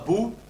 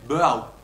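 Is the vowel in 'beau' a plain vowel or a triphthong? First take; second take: plain vowel; triphthong. First: The vowel is a single plain vowel. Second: The vowel glides through three vowel qualities. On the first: "non pas beau" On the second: "mais beau. C'est une magnifique triftongue"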